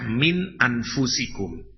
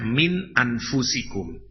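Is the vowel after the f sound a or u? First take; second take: u; u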